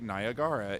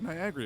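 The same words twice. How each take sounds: First: Niagara is sounded out literally from its spelling. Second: Niagara is said with its usual pronunciation. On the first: It is a playful, silly reading. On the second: It is the normal reading.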